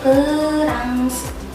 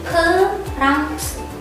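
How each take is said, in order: First: It is pronounced the Korean way. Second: It is pronounced the Korean way.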